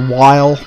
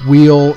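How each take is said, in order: First: The name starts with w and rhymes with mile. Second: The name starts with w and rhymes with feel. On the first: "some people prefer while" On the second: "some per- people prefer wheel"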